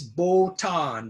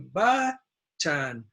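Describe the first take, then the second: First: The first vowel sounds like 'o'. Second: The first vowel is a short 'uh'. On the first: The speaker calls it wrong. "some Japanese uh, pronounce this botan, but it's not botan" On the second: The speaker calls it right. "It's the short U"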